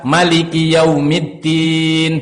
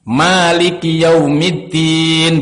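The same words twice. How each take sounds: First: The vowel after the m is kept short. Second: The vowel after the m is held long. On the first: "memendekkan huruf mim" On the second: "mimnya panjang"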